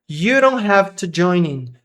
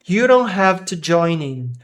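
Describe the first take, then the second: The two takes are said the same way.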